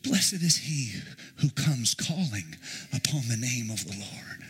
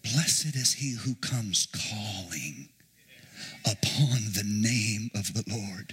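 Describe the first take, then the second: First: Said in the usual way. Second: Drawn-out, solemn chant; slow intoned reading. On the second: Shown as a demonstration. Preacher chanting scripture slowly to congregation. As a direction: intone each word slowly. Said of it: "You can also interpret that".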